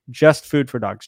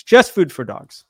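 First: Said in the usual way. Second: Louder hype slogan call-out; wrestling promo. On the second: Pretend. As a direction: belt it out like a wrestler. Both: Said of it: "I'm gonna do a real promo".

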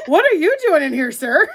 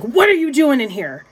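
First: Higher-pitched, amused comeback leaning on "you"; retold retort, hit "you"; retort stressing YOU. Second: Mild mock-angry demand, a bit higher; retold rage. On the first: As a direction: throw it back with YOU pitched high. Turns his question back on him. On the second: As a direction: imitate an indignant man confronting someone. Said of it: "like, in a rage".

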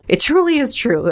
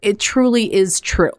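First: Said again much higher, sing-song; playful high repeat. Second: Said in the usual way. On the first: Shown as a demonstration. Host repeating her own phrase to listeners, high and playful. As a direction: jump way up in pitch to mock yourself. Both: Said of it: "me not even making much sense".

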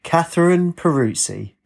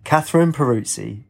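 First: Slow, high call of a full name; shouted. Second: Lightly gravelled reading aloud; gravelly. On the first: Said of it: "Then the man shouted". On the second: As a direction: read the name out in a mildly gravelly voice. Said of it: "in a gravelly voice". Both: A narrator's reading.

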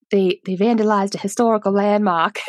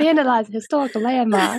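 First: Mild Boston accent imitation. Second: Put-on laughing Boston accent. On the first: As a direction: quote the sheriff in a Boston accent. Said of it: "Dempsey that's like". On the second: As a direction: laugh through a Boston impression. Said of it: "I could not with his accent".

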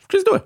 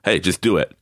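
First: Climbing buddies hyping each other with the motto; hyped slogan. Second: Said in the usual way. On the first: Retold or imitated. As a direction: pump it up like an ad. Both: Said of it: "like Nike".

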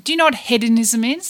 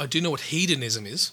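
First: "hedonism" with a short e, as in head. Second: "hedonism" with a long e, as in heed. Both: Real, not acted. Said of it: "you can say either".

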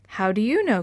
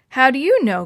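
First: Said in the usual way. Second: Loud, higher, irritated retort; snapping back. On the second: A narrator's reading. Chris challenging a doubting classmate, snapping back loudly. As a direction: snap it back as a sharp challenge. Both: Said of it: "Chris snapped back".

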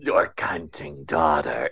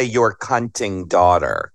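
First: Low, slow campy drag queen voice. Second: Campy drag queen. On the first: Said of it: "She sounds like a drag queen". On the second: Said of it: "Sounds like a drag queen". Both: Retold or imitated.

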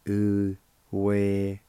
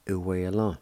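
First: "Uwelon" drawn out slowly, each syllable clear; teacher modelling "Uwelon" slowly. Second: Said in the usual way. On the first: Shown as a demonstration. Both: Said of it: "It's pronounced like this".

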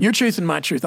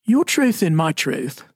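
First: 'Your truth and my truth' in a lightly put-on Texas accent; a hint of a down-home Texas accent. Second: 'Your truth and my truth' slower and more careful, as if to sound smarter; mock-educated take on 'Your truth and my truth'; a touch of put-on polish, said slowly; trying to sound smarter. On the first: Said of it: "I'm gonna just go Texas on it". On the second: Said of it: "I'll try to sound a little smarter". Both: Shown as a demonstration.

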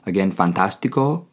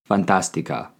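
First: Fantástico closing on a clear O; fantástico as a man says it; masculine ending. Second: Fantástica closing on a clear A; fantástica as a woman says it; feminine ending. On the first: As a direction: stress the final O of fantástico. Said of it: "Men use fantástico". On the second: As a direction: stress the final A of fantástica. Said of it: "women use fantástica". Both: Shown as a demonstration.

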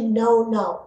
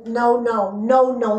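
First: No, no said with a flat Afrikaans vowel, not like English now; Afrikaans pronunciation. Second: Said in the usual way. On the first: Shown as a demonstration. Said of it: "It's actually". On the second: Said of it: "The way that this say".

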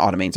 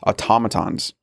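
First: Automatons said as AH-tuh-may-tunz, stress on the first syllable; wrong pronunciation. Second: Automatons said as uh-TOM-uh-tons, stress on TOM; corrected pronunciation. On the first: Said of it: "I always wanna say automatons". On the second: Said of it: "but it's automatons". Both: Shown as a demonstration.

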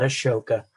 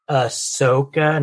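First: Ashoka said a-SHOH-kah with a sh sound; wrong pronunciation. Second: Ahsoka said ah-SOH-kah, the s and o separate; correct pronunciation. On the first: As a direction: Ashoka with sh, the common mistake. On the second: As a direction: Ahsoka with a plain s, stress on SOH. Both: Shown as a demonstration. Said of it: "not Ashoka".

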